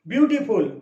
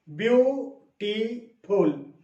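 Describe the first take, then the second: First: Said in the usual way. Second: ब्यूटीफुल drawn out very slowly, syllable by syllable; syllables spelled out. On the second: Shown as a demonstration. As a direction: stretch ब्यूटीफुल into its three slow beats. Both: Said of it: "इसमें तीन syllable है".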